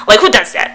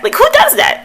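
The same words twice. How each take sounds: First: Raised voice, a little higher; exasperated exclamation. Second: Very high, loud disbelief; incredulous squeal. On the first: Vlogger mocking her own giggling, exasperated. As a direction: exclaim in mild disbelief at yourself. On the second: Vlogger mocking her own giggling, squealed incredulity. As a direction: shoot the pitch way up in disbelief. Repeats exclamation far higher. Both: Real, not acted.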